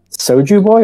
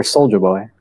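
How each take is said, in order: First: Put-on "Soju Boy" with no L, a "joo" second syllable; alternative pronunciation. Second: Put-on "Soulja Boy" with an L, like "soldier boy"; alternative pronunciation. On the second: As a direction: say "Soulja Boy" as sole-juh boy. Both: Shown as a demonstration.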